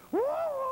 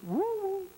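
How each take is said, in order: First: Very high falsetto answering woo; higher echo hoot. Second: High falsetto woo call; high hoot. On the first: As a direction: coo back from inside, very high. Voice answers from cave. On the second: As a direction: hoot into the cave. Hunter calls into cave. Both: Acted.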